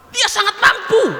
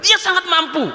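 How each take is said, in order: First: Slow, much higher, with a laugh in it; the sheikh answers the drunkard, slow and high with a chuckle; sheikh's reply. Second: Higher, firm repeat; the sheikh repeats his answer firmly to the drunkard; sheikh's reply. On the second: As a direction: restate it calmly and firmly. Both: Acted. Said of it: "kata Syekh Abdul Qadir Jailani".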